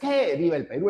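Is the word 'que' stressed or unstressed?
stressed. The word que carries strong stress. The speaker calls it wrong. "no es"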